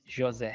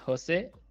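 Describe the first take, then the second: First: The name is said with a Portuguese pronunciation. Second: The name is said with a Spanish pronunciation. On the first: "In Portuguese is José" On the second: "In Spanish is José"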